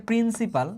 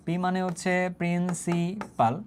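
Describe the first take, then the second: First: A measured, steady 'principal'; measured term. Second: Very slow, 'principal' broken into syllables; slow dictation. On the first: Teacher tells class what P stands for, measured. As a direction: say 'principal' evenly and clearly. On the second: Teacher repeats what P stands for, dictating slowly. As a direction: draw out 'principal' piece by piece for note-takers. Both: Shown as a demonstration.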